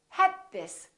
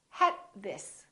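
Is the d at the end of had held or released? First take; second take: held; held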